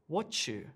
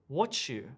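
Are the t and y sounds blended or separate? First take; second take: blended; blended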